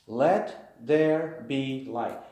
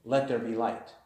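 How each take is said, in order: First: Slow, weighty let there be light; slow emphatic reading. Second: Said in the usual way. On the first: Shown as a demonstration.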